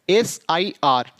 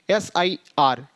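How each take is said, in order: Both takes have the same delivery.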